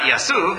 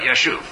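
First: The middle consonant is a plain s sound. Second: The middle consonant is an sh sound. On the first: The speaker calls it wrong. "Not Yasuv" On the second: The speaker calls it right. "but Yashuv"

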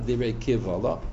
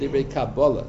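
First: The second word has a v sound. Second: The second word has a b sound. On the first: The speaker calls it wrong. "not Divrei Kivala" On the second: The speaker calls it right. "he translates the word Divrei Kabbalah"

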